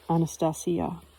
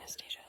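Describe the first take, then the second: First: The name is said with a Russian pronunciation. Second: The name is said with an English pronunciation. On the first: "this reflects the Russian pronunciation of her name, with the stress on the syllable C" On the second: "But I still call it"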